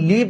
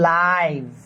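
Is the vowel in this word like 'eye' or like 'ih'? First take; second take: ih; eye. First: The vowel is a short 'ih' sound. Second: The vowel is a long 'eye' sound. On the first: The speaker calls it wrong. "এটা মূলত লিভ না" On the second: The speaker calls it right. "এটা উচ্চারণ করতে হবে, এটা হচ্ছে লাইভ"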